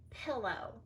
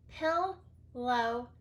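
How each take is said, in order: First: Said in the usual way. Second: Pillow with the L held long; teacher stretching the L; doubled L. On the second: Shown as a demonstration. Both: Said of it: "split between the two L's".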